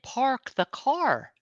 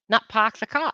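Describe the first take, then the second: First: It is said without a regional accent. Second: It is said with a strong regional accent. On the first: This is how the man actually said it. "he literally said" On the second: This is how the man was expected to say it. "I thought he was gonna, cause he has the accent"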